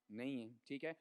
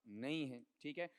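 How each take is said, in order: Both takes have the same delivery.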